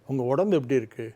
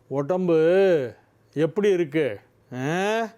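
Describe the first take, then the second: First: It is said softly in a low, gentle tone. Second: It is said in a raised, threatening tone.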